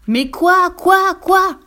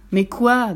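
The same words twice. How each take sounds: First: High, loud repeated demand; exasperated yell. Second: Said in the usual way. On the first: A narrator's reading. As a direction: yell it as a fox out of patience. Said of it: "hurla le renard". (hurlement de renard exaspéré) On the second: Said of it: "demanda le renard".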